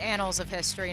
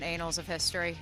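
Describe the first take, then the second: First: The first vowel is short, as in cat. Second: The first vowel is long, as in cape. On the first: The speaker calls it right. "It's pronounced" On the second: The speaker calls it wrong.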